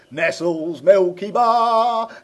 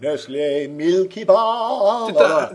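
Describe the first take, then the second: First: The brand name is said plainly, ending in s. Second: The brand name is said in a posh way. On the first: This is the older way the name was said. "as it used to be called" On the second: This is the newer, upmarket way the name is said. "it went all posh and southern and upmarket"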